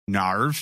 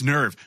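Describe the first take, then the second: First: The vowel sounds like 'ar' in car. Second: The vowel sounds like 'er' in her. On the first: Others say it this way. The speaker calls it wrong. "everybody goes nerve, narve" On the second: This is how the word should be said. The speaker calls it right. "it's nerve"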